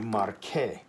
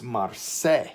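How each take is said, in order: First: The middle consonant is a k sound. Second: The middle consonant is an s sound. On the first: The speaker calls it right. "We want it to be marque" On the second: The speaker calls it wrong. "it changes this to the S sound"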